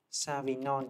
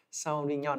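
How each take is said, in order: First: "Sauvignon" said simply as sa-vi-nhon; easy Vietnamese-style "Sauvignon", first syllable sa; quick casual pronunciation. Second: "Sauvignon" drawn out slowly as sau-vi-nhon; slow, careful "Sauvignon" after a chuckle, first syllable sau; mock-correct pronunciation. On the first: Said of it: "Vậy cho nó nhanh". ("Sauvignon" đọc nhanh gọn kiểu sa-vi-nhon) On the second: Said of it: "chuẩn rồi". ("Sauvignon" đọc chậm cho chuẩn, sau-vi-nhon) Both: Shown as a demonstration.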